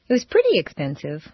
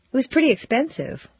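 First: "pretty" said fast and unstressed, slightly faster pace; a quicker take with no weight on "pretty"; quick, light pretty. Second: "pretty" stressed and falling, "expensive" trailing off. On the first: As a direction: rush through "pretty" so it means somewhat. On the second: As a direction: lean hard on "pretty" with a falling tune. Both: Shown as a demonstration. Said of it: "How was it?".

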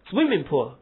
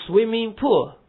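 First: Swimming stressed, pool light. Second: Pool stressed high and loud; wrong stress on pool. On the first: Teacher giving the right reading, stress on Swimming. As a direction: lean on Swimming. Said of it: "不是swimming pool". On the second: Teacher showing the wrong reading, stress on pool. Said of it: "不能这样读". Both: Shown as a demonstration.

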